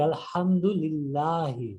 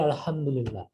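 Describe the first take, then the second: First: আলহামদুলিল্লাহি with the final i sounded out clearly; clear case ending. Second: Said in the usual way. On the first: Shown as a demonstration. Teacher shows students the full case ending, sounding the final i of আলহামদুলিল্লাহি clearly. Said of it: "স্পষ্ট উচ্চারণ করে". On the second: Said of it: "কিন্তু বলবো কি আলহামদুলিল্লাহি".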